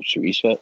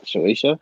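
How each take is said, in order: First: Shueisha said "shoo-EE-sha", questioning; unsure pronunciation. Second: Shueisha said "shoo-AY-sha", questioning; alternative pronunciation. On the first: Co-host naming the publisher, unsure Shueisha as "shoo-EE-sha". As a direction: try Shueisha with an ee in the middle, rising. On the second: Co-host correcting the publisher's name, Shueisha as "shoo-AY-sha". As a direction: try Shueisha with an ay in the middle, rising. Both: Shown as a demonstration.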